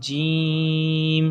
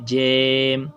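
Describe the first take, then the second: First: The vowel is pushed through the nose. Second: The vowel sounds like a short e. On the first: "उसकी आवाज़ भी नाक में भी नहीं ले जानी जैसे जीम" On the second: "इसको मजहूल भी नहीं पढ़ना जैसे जेम"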